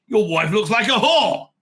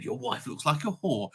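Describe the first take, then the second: First: Provoking a Gentile with a loud, slow insult. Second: Quiet aside. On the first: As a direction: throw the insult hard. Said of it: "if you say to a Gentile". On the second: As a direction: toss the insult off quietly. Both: Retold or imitated.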